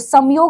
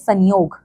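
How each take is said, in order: First: It is said with a full m sound. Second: It is said with a nasal sound instead. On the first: The speaker calls it wrong. "संयोग हम नहीं बोलते" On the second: The speaker calls it right. "हम बोलते हैं संयोग"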